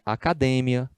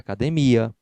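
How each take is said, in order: First: The stress falls where Spanish places it. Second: The stress falls where Portuguese places it. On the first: "tem a sílaba tônica diferente do português" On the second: "no lugar de"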